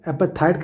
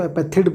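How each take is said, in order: First: एपेथाइड with a long ai at the end, apartaid; one pronunciation. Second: एपेथिड with a short i at the end, apartid; other pronunciation. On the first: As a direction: say एपेथाइड ending in aid. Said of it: "कई लोग बोलते हैं". (एपेथाइड, अंत में लंबा आइ) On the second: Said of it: "कई लोग उसको एपेथिड बोलते हैं". (एपेथिड, अंत में छोटी इ) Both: Shown as a demonstration.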